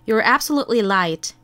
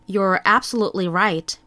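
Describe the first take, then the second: First: The last word begins with an L-like sound. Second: The last word begins with a clear R sound. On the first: The speaker calls it wrong. "이번엔 제가 틀리게 발음해 볼게요" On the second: The speaker calls it right. "들어보시고"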